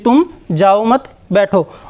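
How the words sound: The pause comes after 'mat'.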